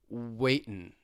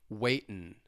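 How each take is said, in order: Both takes have the same delivery.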